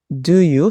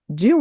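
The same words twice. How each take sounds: First: Each word keeps its own full, separate sound. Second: The two words blend into one short sound. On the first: "eles têm esse som separadamente" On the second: "quando eu junto tudo, ele vai ficar parecendo como um do"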